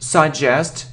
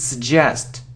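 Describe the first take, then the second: First: The first vowel is a full vowel. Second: The first vowel is a reduced uh sound. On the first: The speaker calls it wrong. "it isn't suggest" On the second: The speaker calls it right. "it's suggest"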